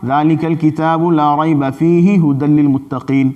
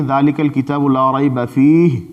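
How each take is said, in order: First: Recited with no stop anywhere; all in one breath. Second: Recited with a clear stop after "فیہ". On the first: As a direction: run the whole verse through in a single breath. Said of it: "ایک ہی سانس میں پڑھ ڈالا". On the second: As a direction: pause on "فیہ" before going on. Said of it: "پہلی جگہ وقف کر دیں". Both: Shown as a demonstration.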